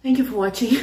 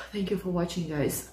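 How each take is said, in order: First: Said in the usual way. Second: Softer, sighing, drained sign-off; sighing thanks. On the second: Real, not acted. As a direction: breathe out and say it worn out.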